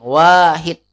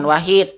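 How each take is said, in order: First: The first vowel is said long. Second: The first vowel is said short. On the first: The speaker calls it right. "wa-nya panjang" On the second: The speaker calls it wrong. "bukan wahid"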